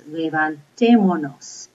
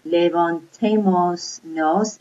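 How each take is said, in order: First: LEVANTÉMONOS as one slow word, no S before "nos"; correct pronunciation demo. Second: LEVANTEMOS NOS as two words, final S kept; wrong pronunciation demo. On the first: Spanish teacher showing how it's said, correct levantémonos. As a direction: stress TÉ in "levantémonos", dropping the middle S. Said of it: "it's levantémonos". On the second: Spanish teacher showing what it's not, mispronounced levantemos nos. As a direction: say "levantemos nos" slowly with the S before "nos". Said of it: "It's not levantemos nos". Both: Shown as a demonstration.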